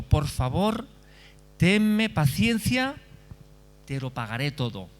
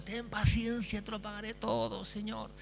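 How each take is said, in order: First: A slow, drawn-out plea for patience; begging servant. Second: Higher, soft imploring plea, not shouted; pleading servant. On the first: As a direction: beg him for time, stretching out tenme paciencia. Servant begs master for patience. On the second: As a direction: beg quietly, voice lifted and fading. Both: Acted.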